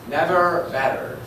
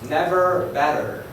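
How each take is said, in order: First: It is said in an American accent. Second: It is said in an American accent.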